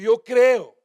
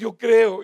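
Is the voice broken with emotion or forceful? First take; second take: forceful; broken. First: It is said forcefully, with preaching energy. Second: It is said in a broken, anguished voice. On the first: The speaker calls it wrong. "no se dice así como estoy diciéndolo ahorita... estoy en el ímpetu del púlpito" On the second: The speaker calls it right. "En medio de angustia, con los ojos mojados, con la voz quebrada"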